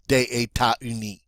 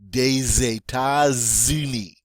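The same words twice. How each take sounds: First: The S of des stays silent. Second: The S of des is sounded as Z. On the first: The speaker calls it wrong. "that sounds better than" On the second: The speaker calls it right. "we're going to pronounce it now as a Z"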